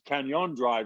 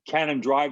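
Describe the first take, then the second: First: The middle consonant is an ny sound. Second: The middle consonant is a plain n sound. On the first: This follows the tilde in the original spelling. The speaker calls it right. "really, because it has a tilde over it" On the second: This is how people commonly say the name. The speaker calls it wrong. "they call it"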